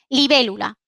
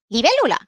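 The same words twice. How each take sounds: First: It is said with a neutral statement tune. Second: It is said with an echo-question tune. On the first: It states what something is. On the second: It repeats what was just heard.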